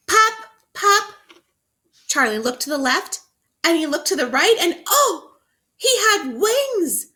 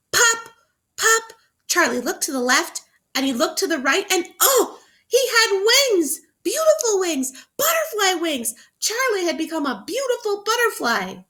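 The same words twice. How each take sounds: First: High, loud, thrilled read-aloud; excited reading. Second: Even more excited reading. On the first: Teacher reading to children, thrilled high read-aloud. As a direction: burst out with delight at the reveal. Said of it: "The author wants you to be so excited". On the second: Teacher rereading the reveal to children, even more thrilled. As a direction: read it with all the wonder you can. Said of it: "I'm gonna read that again". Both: Shown as a demonstration.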